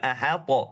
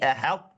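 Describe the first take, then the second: First: The t bounces with a short echo vowel. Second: The t stops dead with no echo. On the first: The speaker calls it wrong. "Jangan mantul. ... Bukan ahata" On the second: The speaker calls it right. "Tapi ahat"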